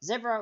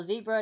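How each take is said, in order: First: "Zebra" as ZEB-ra, short e. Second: "zebra" as ZEE-bra, long ee. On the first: Host comparing regional pronunciations, "Zebra" said ZEB-ra. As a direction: make the first syllable of "Zebra" rhyme with web. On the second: Host comparing regional pronunciations, "zebra" said ZEE-bra. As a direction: make the first syllable of "zebra" rhyme with see. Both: Shown as a demonstration. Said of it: "depending on where you are from and how you pronounce it".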